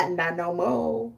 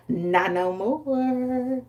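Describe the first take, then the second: First: Stern Mother Nature. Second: Drawn-out taunt. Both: Retold or imitated. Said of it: "and then she said".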